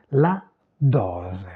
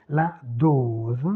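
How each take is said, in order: First: Dose with open o, Italian final e, low pitch. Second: Dose with closed o and a z sound to end; closed French o. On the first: Teacher contrasting Italian with French, open o in dose. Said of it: "c'est ouvert". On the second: Teacher contrasting French with Italian, closed o in dose. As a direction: keep the o in dose rounded and closed. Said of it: "Fermé en français". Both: Shown as a demonstration.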